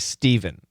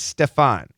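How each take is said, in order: First: The middle consonant is a V sound. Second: The middle consonant is an F sound. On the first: "it very well could be Steven" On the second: "I tend to say Stefan"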